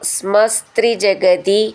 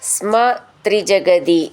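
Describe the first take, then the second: First: The two words are run together as one word. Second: The two words are said as separate words.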